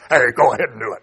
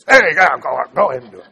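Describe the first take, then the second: First: It is said in a plain voice. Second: It is said in a put-on tempter voice.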